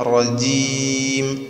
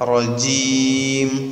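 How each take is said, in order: The two takes are said the same way.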